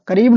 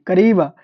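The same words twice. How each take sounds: First: करीब said clipped, without the final a; करीब, clipped off, shown as the mistake; करीब with no closing vowel, marked wrong; wrong version. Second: करीबा said in full, with a clear final a; करीबा, the right ending held clearly; करीबा with the closing a fully sounded; correct version. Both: Shown as a demonstration. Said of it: "करीबा, करीब नहीं".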